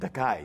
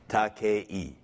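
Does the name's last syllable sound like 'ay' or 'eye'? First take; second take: eye; ay. First: The last syllable sounds like eye. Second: The last syllable rhymes with okay. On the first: The speaker calls it wrong. "the mispronunciation" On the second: The speaker calls it right. "It's pronounced the Spanish way"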